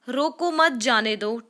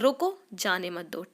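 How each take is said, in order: First: There is no pause after the first word. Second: There is a pause right after the first word. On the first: Do not stop them, let them go. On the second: Stop, do not let them go.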